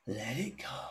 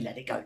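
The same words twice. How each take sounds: First: It is said slowly and with real feeling. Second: It is said quickly and mechanically, without feeling.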